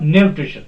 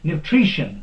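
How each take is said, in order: First: The stress is not on the syllable tri. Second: The stress is on the syllable tri. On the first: The speaker calls it wrong. "not nutrition. That is wrong" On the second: The speaker calls it right. "The stress will be put on tree"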